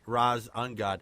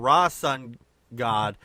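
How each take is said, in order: First: The s sound ends the first part. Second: The s sound begins the second part. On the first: The speaker calls it wrong. "not ... It's just the way I read it" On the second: The speaker calls it right. "it was uh, Ra Sun God"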